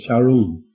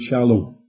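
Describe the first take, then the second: First: The middle consonant is an R-like sound. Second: The middle consonant is a clear L sound. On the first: "You can't say the L, of course, so they say shalom"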